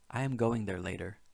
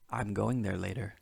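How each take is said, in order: First: The words 'I am' are said in full. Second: The words 'I am' are contracted together.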